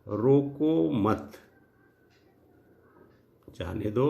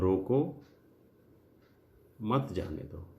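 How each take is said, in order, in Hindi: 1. विराम मत के बाद है। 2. विराम रोको के बाद है। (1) "अर्थात यहां पे जाने की इजाजत है।" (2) "ये अल्प विराम को आप यहां लगा दीजिए रोको के बाद"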